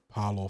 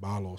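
First: The name starts with a hard P sound. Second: The name starts with a soft B sound. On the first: The speaker calls it wrong. "after being Parlor for so long" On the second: The speaker calls it right. "It's more of like a soft B and being Barlor"

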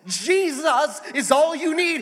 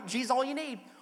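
First: Jesus is stretched into four syllables, televangelist-style. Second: Jesus is said plainly, in two syllables.

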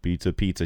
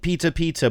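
First: The words are said quietly, without yelling. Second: The words are yelled loudly. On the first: "But he's like" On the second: "she's like yelling"

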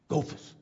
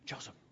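First: The name starts with a G sound. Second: The name starts with a J sound. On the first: The speaker calls it wrong. "he'd always called Joseph Gophus" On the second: The speaker calls it right. "It's Joseph"

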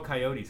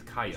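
First: It is said in the usual, standard pronunciation. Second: It is said in a Southern-style pronunciation.

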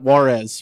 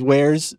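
First: The word is said as two syllables, like Juarez. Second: The word is said as one syllable, like wares. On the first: The speaker calls it wrong. "But we 100% called it Juarez, for sure" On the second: The speaker calls it right. "I think now it has been settled on as wares scene"

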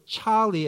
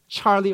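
First: The name is said in an Australian accent. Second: The name is said in a plain accent.

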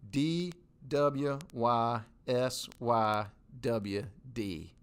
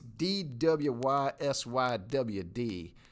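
First: The letters are said slowly. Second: The letters are said fast.

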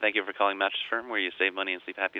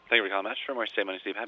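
First: It is said more slowly. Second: It is said very fast.

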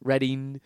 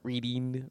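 First: The first vowel is short, like 'red'. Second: The first vowel is long, like 'reed'. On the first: The speaker calls it right. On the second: The speaker calls it wrong.

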